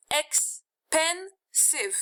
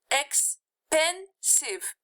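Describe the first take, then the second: First: Expensive, said very slowly, syllable by syllable, higher; teacher drawing out each syllable of expensive; slow syllable demo. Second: Expensive, drawn out slowly, falling at the end; slow, clear classroom pronunciation of Expensive; slow syllable demo. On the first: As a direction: stretch out ex-pen-sive so each syllable is heard. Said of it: "how many syllables do you hear?". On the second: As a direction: say Expensive slowly for students to count. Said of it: "Three, right?". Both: Shown as a demonstration.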